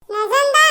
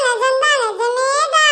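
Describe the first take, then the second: First: Said in the usual way. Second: Slow, choked with happy tears; mock tearful. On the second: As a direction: draw it out as if near crying. (ஆனந்தக் கண்ணீருடன் மெதுவாக) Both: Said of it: "இது கனவா இல்ல நிஜமாடா".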